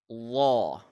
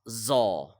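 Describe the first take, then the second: First: The Z sound is heavy and muffled. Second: The Z sound is light and clear. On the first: The speaker calls it right. "Instead, it is law. ... the Z sound will be muffled" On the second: The speaker calls it wrong. "It is not like this zaw"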